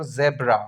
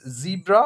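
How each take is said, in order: First: "zebra" said as ZEB-ra; "zebra" with first syllable like "zeb"; second pronunciation option. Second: "zebra" said as ZEE-bra; "zebra" with first syllable like "zee"; first pronunciation option. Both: Shown as a demonstration. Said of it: "it's zebra or zebra?".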